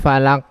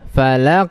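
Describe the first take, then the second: First: The final consonant stops without any echoing bounce. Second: The final consonant ends with a short echoing bounce. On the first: The speaker calls it wrong. "bukan falak" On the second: The speaker calls it right. "Yang benar harus dinampakkan sifat huruf qaf yaitu qalqalah"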